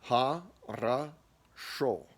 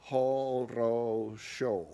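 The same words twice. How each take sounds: First: Ha, ra, sho syllable by syllable, a sounds then o; correct reduced vowels. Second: Horosho slowly with every o a full o; wrong full O's. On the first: Teacher showing the right way, syllables split. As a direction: split it Ha, ra, sho, only last o round. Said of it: "that's not how it's typically said". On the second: Teacher showing the wrong way, slow full vowels. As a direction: drag out ho-ro-sho, each o round. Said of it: "which we all know is wrong". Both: Shown as a demonstration.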